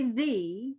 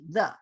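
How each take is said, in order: First: The vowel is full and not rushed. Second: The vowel is a quick, reduced schwa. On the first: The speaker calls it wrong. "We don't usually say the" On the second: The speaker calls it right. "it's said really quickly"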